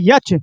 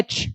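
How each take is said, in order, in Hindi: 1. इसकी शुरुआत 'ye' की ग्लाइड आवाज़ से होती है। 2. इसकी शुरुआत सादे 'e' स्वर से होती है। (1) "इसको लोग पढ़ लेते हैं यच" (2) "ये होता है एच"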